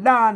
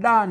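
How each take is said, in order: The two takes are said the same way.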